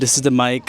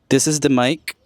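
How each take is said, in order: First: Some background noise is audible behind the voice. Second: Background noise is suppressed, leaving mostly the voice. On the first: "without the isolating feature. You can hear a bit of the external sounds still" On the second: "with the isolating feature. So supposedly it's it should just focus in my voice now"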